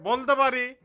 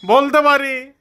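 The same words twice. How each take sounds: First: "বলতে পারি" said much softer, almost under the breath; soft version. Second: "বলতে পারি" said full and firm, stress on "বলতে"; firm version. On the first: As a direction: drop it right down. (নরম স্বরে "বলতে পারি") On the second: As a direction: push it out boldly. (জোর দিয়ে "বলতে পারি") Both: Shown as a demonstration. Repeats phrase two ways.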